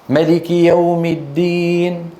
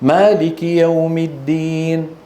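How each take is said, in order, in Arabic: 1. الحركة الأولى في الكلمة الأولى قصيرة. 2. الحركة الأولى في الكلمة الأولى طويلة. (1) "أن يكون للكلمة القرآنية الواحدة نطقان، بهذا النطق تعطي معنى" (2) "وبهذا النطق تعطي معنى آخر"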